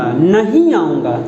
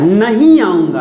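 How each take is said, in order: First: नहीं drawn out, lower and slow; slow stress on नहीं. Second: नहीं punched louder; stress on नहीं. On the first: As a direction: weigh down नहीं slowly. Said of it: "जिस शब्द पे जोर पड़ता है". (नहीं पर धीमा, भारी ज़ोर) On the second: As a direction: hit नहीं hard and loud. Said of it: "जोर किस पर पड़ रहा है?". (नहीं पर ज़ोर, ऊँची आवाज़ में) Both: Shown as a demonstration.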